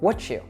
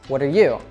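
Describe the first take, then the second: First: The words merge with a 'ch' sound. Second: The words are linked without a 'ch' sound. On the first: "reduce and connect even more and say it with more of a ch sound" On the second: "you can say, what are you as what are you?"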